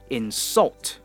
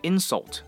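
First: The stress is on the second syllable. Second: The stress is on the first syllable. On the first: It is the verb. The speaker calls it right. "如果是动词的话呢，我们就会说insult" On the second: It is the noun. The speaker calls it wrong. "而不是insult，那个它的发音、它的语调是不一样的"

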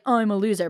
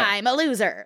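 First: It sounds sad and self-pitying. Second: It sounds proud and affectionate.

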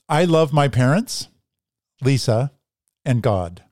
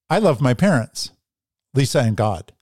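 First: There is a pause before "and God". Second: There is no pause before "and God".

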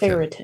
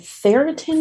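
First: The word begins with a TH sound. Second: The word begins with an F sound. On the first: "F or T-H?" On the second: "F or T-H?"

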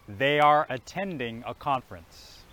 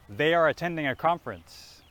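First: The sentence is said at slow speed. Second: The sentence is said at natural speed. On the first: "We'll start slowly again" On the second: "I'll say it once naturally"

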